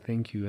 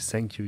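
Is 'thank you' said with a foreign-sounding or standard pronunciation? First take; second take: standard; foreign-sounding. First: It is said with the standard pronunciation. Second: It is said with a foreign-sounding pronunciation. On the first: The speaker calls it right. "You have to say thank you" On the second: The speaker calls it wrong. "You don't say thank you"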